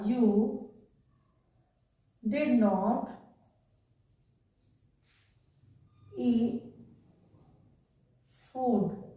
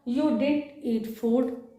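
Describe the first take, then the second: First: Both words 'did not' are said in full. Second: 'Did not' is contracted into one syllable. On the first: This is the written, formal form. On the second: This is how it is said in normal speech.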